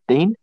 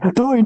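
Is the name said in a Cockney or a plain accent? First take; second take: plain; Cockney. First: The name is said plainly, without a Cockney accent. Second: The name is shouted loudly in a Cockney accent. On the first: A teacher is calling the register. "the teacher going" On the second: The class is teasing the boy. "everyone's saying it as loud as they can in the Cockney accent"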